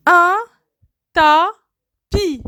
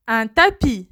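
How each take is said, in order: First: "Un" high, then "tapis" apart with a falling end; syllabified. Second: Said in the usual way. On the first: Shown as a demonstration. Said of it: "word split into syllables". ("Un tapis" détaché, syllabe par syllabe) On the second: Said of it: "word said whole after split".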